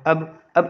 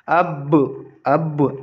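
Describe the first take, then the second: First: The final b stops flat with no echo. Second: The final b is released with a bouncing echo. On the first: The speaker calls it wrong. "ऐसे नहीं करेंगे एकदम सिंपल से अब खाली नहीं पढ़ देंगे" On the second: The speaker calls it right. "अब अब पढ़ेंगे"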